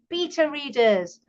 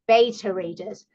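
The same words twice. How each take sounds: First: Beta is said the speaker's own, non-American way. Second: Beta is said the American way.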